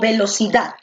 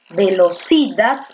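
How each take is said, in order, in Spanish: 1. La fuerza recae en la última sílaba. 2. La fuerza recae en la tercera sílaba.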